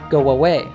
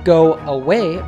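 First: A W sound links 'go' and 'away'. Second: The words are said without a linking W sound.

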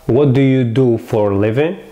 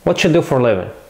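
First: 'Do you' is said as separate clear words. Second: 'What do you' blends into a 'whatcha' sound. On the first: This is the written form. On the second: This is how Americans actually say it.

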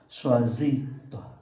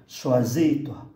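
First: The word toi is said lightly, unstressed. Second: The word toi is said lightly, unstressed.

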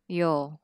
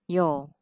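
No difference in how they are said.

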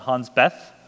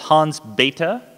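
First: The surname is pronounced in an anglicized way. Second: The surname is pronounced in the German way. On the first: The speaker calls it wrong. "not Hans Bethe" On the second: The speaker calls it right. "The guy who figured out stellar nucleosynthesis was Hans Bethe, ... German physicist"

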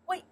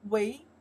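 First: The syllable is said with a falling tone. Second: The syllable is said with a rising tone. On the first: "or we can pronounce the four tones" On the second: "we can pronounce second tones"

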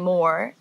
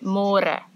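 First: It sounds like the English word 'more'. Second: It has the Afrikaans rolled r and vowels. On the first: The speaker calls it wrong. "don't say more" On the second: The speaker calls it right. "say more"

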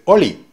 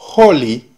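First: The word starts with no h sound. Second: The word starts with an audible h sound. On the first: "va a decir oli" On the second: "En lugar de decir holy"

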